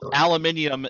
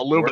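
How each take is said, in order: First: The word is said with five syllables. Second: The word is said with four syllables. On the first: The speaker calls it right. "aluminium is the proper pronunciation" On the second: The speaker calls it wrong. "a word you have to mispronounce"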